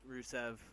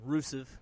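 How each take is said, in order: First: The name is said the usual way. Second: The name is said in an imitated mispronunciation. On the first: The speaker calls it right. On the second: The speaker calls it wrong.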